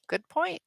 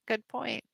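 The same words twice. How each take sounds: First: 1 bright high exclamation. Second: Said in the usual way. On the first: Shown as a demonstration. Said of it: "Good point, says Kalibi". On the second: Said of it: "says Kalibi".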